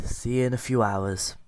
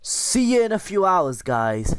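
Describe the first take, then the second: First: Said in the usual way. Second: High, bright sing-song farewell; sing-song goodbye. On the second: Pretend. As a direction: lilt it up high like a cheery wave. Cheery sign-off while install runs.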